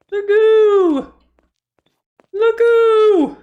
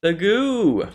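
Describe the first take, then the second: First: Very high, loud squeal; squeaky high voice. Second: Said in the usual way. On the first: Acted. Repeats the goo in voices.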